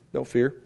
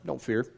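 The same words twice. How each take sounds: First: Said in the usual way. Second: Hushed, gentle don't fear; a quiet, soothing "Don't fear."; soft reassurance. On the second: Shown as a demonstration. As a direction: say "Don't fear." much softer, like comforting someone.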